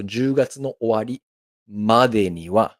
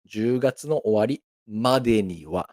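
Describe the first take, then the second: First: Slow model phrase. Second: Said in the usual way. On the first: Shown as a demonstration. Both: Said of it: "let's do it again".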